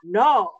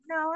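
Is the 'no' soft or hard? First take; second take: hard; soft. First: It is a hard, aggressive no. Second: It is a soft, polite no.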